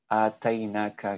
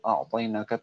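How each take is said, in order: First: The first sound is a plain glottal stop. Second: The first sound is pressed deep in the throat. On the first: "ainnya itu diganti dengan hamzah dan po-nya itu diganti dengan ta" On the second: "agak susah gitu karena harus dari kerongkongan"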